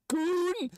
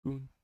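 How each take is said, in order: First: High shouted call of Goon; shouted character call. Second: Said in the usual way. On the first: Pretend. Character calls out to his partner, high shout. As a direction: yell Goon up high, bright and sudden. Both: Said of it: "I'm not doing a British voice".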